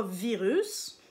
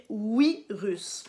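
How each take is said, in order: First: Said in the usual way. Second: "virus" with a W, as "wi-rus"; Japanese pronunciation. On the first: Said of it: "on dit pas virus". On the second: Shown as a demonstration. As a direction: slowly say "virus" as "oui-russe". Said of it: "mais on va dire virus".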